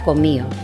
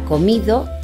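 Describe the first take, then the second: First: No d sound is heard before the last vowel. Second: A d sound is heard before the last vowel. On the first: "se pronuncia comío" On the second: "en lugar de pronunciar comido"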